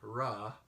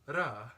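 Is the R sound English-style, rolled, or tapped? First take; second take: English-style; tapped. First: The R is an English-style R without tongue contact. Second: The R is a single quick tongue tap. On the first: "like in English" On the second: "but rather a tapped R"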